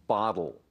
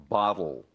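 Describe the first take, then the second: Both takes have the same delivery.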